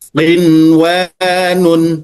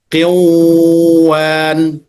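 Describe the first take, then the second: First: The n before the w is pronounced clearly. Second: The n before the w is dropped. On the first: The speaker calls it right. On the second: The speaker calls it wrong. "Tidak boleh dibaca"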